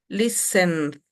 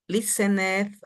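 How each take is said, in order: First: The ending joins the word with no syllable. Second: The ending is a separate extra syllable. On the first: The speaker calls it right. "este sonido consonante lo juntamos con la D" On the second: The speaker calls it wrong. "vamos a procurar que no suene el ed"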